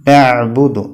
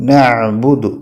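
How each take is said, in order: No difference in how they are said.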